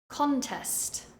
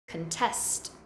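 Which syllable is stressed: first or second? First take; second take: first; second. First: The stress is on the first syllable. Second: The stress is on the second syllable. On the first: It is a noun. "the noun form, stressing the first syllable" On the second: It is a verb. "the verb form, stressing the second syllable"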